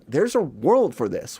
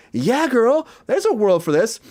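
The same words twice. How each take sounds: First: Said in the usual way. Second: High, sassy mock agreement; sassy Yeah girl. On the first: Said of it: "she's like". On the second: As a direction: camp it up like a girlfriend. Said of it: "which I'm like".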